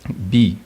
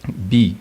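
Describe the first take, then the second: First: The word is said on a mid tone. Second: The word is said on a mid tone.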